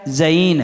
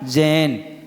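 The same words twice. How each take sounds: First: The vowel glides through two sounds. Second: The vowel is one plain sound. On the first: The speaker calls it right. "उसमें कितनी होती हैं, दो में क्या बोला जाएगा" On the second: The speaker calls it wrong. "और बोल रहे क्या"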